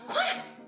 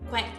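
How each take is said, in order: First: It is said in a tiny baby-like voice. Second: It is said in a neutral human voice.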